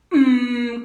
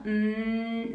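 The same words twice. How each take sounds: First: Loud hum pushed from the abdomen; punched-belly hum. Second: Weaker sustained "mm"; wrong-way hum. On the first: Coach showing the right exercise, forceful belly-driven hum. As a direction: hum as if hit in the stomach. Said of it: "como si te dieran un golpe en el abdomen". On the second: Coach showing how not to do it, unsupported hum. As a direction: hum steadily without any push. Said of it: "pero no, mm, no". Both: Shown as a demonstration.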